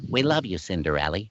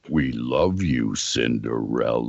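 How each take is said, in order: First: It is said quickly in a high-pitched voice. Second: It is said slowly in a low voice. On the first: "when they play it back at normal speed, it goes" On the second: "And so you do it like that"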